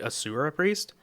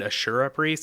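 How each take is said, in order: First: The name is said with an 's' sound. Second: The name is said with a 'sh' sound. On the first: The speaker calls it right. "It's actually Asura Priest" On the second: The speaker calls it wrong. "I keep saying it incorrectly"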